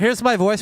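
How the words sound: The voice sounds muffled through fabric. "here's my voice when I'm talking through a piece of fabric"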